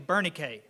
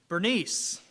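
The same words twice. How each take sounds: First: The name is said with its original Greek sounds. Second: The name is said with its usual American sounds. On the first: "her name is actually Bernice, is how you say it" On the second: "the American pronunciation"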